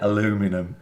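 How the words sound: It is said with an American pronunciation. "the Yanks say aluminum"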